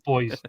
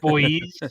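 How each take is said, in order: First: The word ends in an ordinary, short sound. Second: The word ends in a long, buzzing z sound. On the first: "not boys" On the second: "with like a Z on the end"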